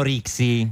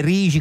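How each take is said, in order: First: "Rixi" said with a ks sound; "Rixi" with a hard ks in the middle; common mispronunciation. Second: "Rigi" slowly, middle sound like Chigi; local Genoese pronunciation. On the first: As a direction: say "Rixi" as spelt, X as ks. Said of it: "tutti la chiamano Rixi". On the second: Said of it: "è Rigi come Palazzo Chigi". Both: Shown as a demonstration.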